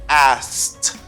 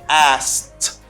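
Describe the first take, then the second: Both takes have the same delivery.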